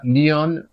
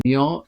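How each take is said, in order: First: "Lion" as French "lee-on", final n sounded; French feminine lionne. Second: "lion" in French, ending on a nasal vowel; French masculine lion. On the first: Teacher giving the word for lioness, "Lion" with sounded n. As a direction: say "Lion" as lionne, closing on a clear n. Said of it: "meaning lioness". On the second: Teacher listing masculine nouns, French "lion" with silent n. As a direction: say "lion" the French way, final n not sounded. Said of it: "few examples of masculine nouns". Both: Shown as a demonstration.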